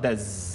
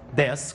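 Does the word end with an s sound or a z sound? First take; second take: z; s. First: The word ends with a buzzing z sound. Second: The word ends with a hissing s sound. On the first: The speaker calls it wrong. "não tem som de Z, você não fala dez" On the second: The speaker calls it right. "dez com som de S"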